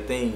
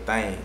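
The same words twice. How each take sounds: First: The word is said in a standard accent. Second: The word is said in a local slang accent. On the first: "people don't say sing or don't say king or don't say thing" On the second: "They say thing"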